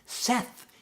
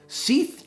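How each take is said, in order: First: The vowel is a short 'e' sound. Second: The vowel is a long 'ee' sound. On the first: The speaker calls it right. "it rhymes with Beth" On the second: The speaker calls it wrong. "they'd get to my name and they'd go"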